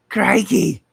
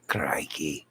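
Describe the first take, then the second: First: Crikey! yelled much higher and louder in a hammed-up Australian accent; mock Aussie exclamation. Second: Crikey muttered low and soft under the breath; quiet crikey. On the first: Streamer greeting an Australian viewer in a hammed-up Australian shout. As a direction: belt it out like a cartoon Australian. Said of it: "from Australia". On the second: Shown as a demonstration. Streamer trying the word out quietly before the big one. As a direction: mumble crikey to yourself.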